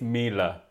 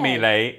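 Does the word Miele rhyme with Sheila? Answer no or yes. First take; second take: yes; no. First: The word rhymes with Sheila. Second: The word does not rhyme with Sheila. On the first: The speaker calls it right. "Miele is pronounced like Sheila" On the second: The speaker calls it wrong. "Not Miele"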